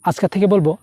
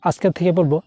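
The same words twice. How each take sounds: The two takes are said the same way.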